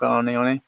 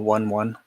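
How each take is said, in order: First: It does not sound like the English number. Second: It sounds like the English number one, twice.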